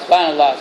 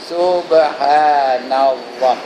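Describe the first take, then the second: First: It is said carelessly and rushed together. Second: It is said carefully with each syllable clear. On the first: The speaker calls it wrong. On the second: The speaker calls it right. "Dia nak sebut macam mana?"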